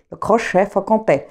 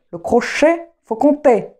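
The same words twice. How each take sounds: First: Said in the usual way. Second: "le crochet, faut compter" sounded out high and carefully; "le crochet, faut compter" high, each part set apart; careful enunciation. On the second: Real, not acted. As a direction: get "le crochet, faut compter" out at last, pitched up. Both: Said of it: "J'arrive à le dire, ça y est".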